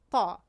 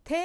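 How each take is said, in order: First: "تا" with the whole tongue raised to the palate; heavy, rounded ṭ in "تا"; heavy emphatic T. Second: Plain light "ت" with the tongue low; crisp light t in "ت", no heaviness. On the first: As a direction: thicken the t of "تا" into a dark Arabic ṭā. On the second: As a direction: say "ت" as a thin, everyday Tajik t. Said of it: "حرف تا از این ت چی فرق دارد". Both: Shown as a demonstration.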